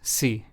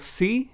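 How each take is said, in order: First: The pitch stays flat on the word. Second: The pitch rises on the word. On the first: It means if. "the second sí is more flat and monotone" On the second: It means yes. "The first sí went up in intonation or in sound"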